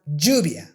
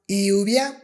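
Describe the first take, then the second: First: It begins with a strong English j sound. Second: It begins with a soft English y sound. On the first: The speaker calls it right. "With the J sound" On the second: The speaker calls it wrong. "With the Y sound"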